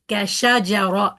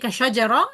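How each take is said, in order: First: Each syllable gets the same full length. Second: The middle syllables are rushed and cut short. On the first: The speaker calls it right. "we need to go slower on it" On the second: The speaker calls it wrong. "sheen, jim, both of them gone"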